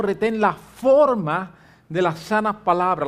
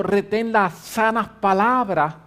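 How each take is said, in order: First: Forma leaned on, slow and firm; stress on forma. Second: Said in the usual way. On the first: Shown as a demonstration. Pastor contrasting the verse, stress on forma. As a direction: hit the word forma. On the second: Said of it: "no simplemente le dijo a Timoteo".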